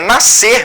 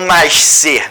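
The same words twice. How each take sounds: First: The 'sc' is pronounced as a single s sound. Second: The 'sc' is pronounced as two separate sounds. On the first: This is the standard pronunciation. The speaker calls it right. "A pronúncia correta é nascer mesmo" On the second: The pronunciation follows the spelling. The speaker calls it wrong. "a pronúncia acaba saindo dessa maneira"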